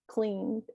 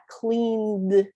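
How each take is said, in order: First: The final D sound is faint, barely heard. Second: The final D sound is strongly pronounced. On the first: The speaker calls it right. "notice that D ending is very faint. It's just cleaned. It's barely um, enunciated" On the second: The speaker calls it wrong. "It's not cleaned"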